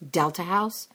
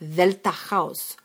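First: The first word begins with a D sound. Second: The first word begins with a TH sound. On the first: The speaker calls it wrong. "There's no letter D in the Greek language" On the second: The speaker calls it right. "It's a hard TH, like the"

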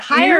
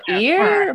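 First: The name is said with an H sound. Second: The name is said without an H sound. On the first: "but it looks like the word hire" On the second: "You pretty much don't say H's"

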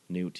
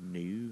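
First: The name ends with a clear t sound. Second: The name ends without a t sound.

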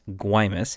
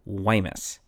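First: The word starts with a hard G sound. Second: The word starts with a soft G sound. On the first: The speaker calls it wrong. "I've been pronouncing as Guaymas" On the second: The speaker calls it right. "should actually be pronounced with a soft G, so something more like Guaymas"

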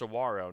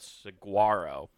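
First: The g is soft, almost like a w. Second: The g is sounded out clearly and hard. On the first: The speaker calls it right. "it's pronounced saguaro" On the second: The speaker calls it wrong. "not saguaro"

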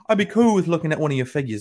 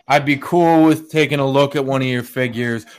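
First: It is said in a put-on British accent. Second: It is said in the speaker's plain accent.

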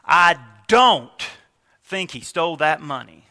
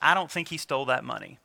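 First: The word 'don't' is stressed. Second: No single word in it is stressed. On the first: The speaker is absolutely sure he didn't steal it. "Move it to the don't" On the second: The speaker simply doesn't think this person stole the money. "You hear that, it's kind of flat"

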